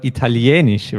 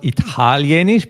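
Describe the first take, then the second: First: Italienisch with the stress on the E, falling; Italienisch, lean on the E syllable; the right way, Italienisch stressed on the E. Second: Italienisch stressed on the first syllable, rising; the wrong way, Italienisch stressed early. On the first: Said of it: "moves to the E". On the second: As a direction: Italienisch with the stress up front, not on the E. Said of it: "here the stress, uh, moves to the E". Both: Shown as a demonstration.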